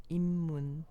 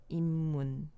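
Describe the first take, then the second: No difference in how they are said.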